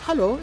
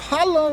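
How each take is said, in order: First: It is said softly. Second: It is said loudly.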